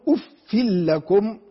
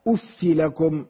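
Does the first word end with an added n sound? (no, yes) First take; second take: yes; no. First: The first word ends with an added n sound. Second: The first word ends in a vowel without n. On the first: "بالتنوين هكذا" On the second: "من غير تنوين"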